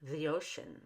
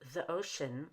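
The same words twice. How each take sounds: First: The word 'the' has long E linking with Y. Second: The word 'the' has a short relaxed vowel. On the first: "with a long E and a Y connecting to the vowel in ocean" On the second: "Instead of the ocean"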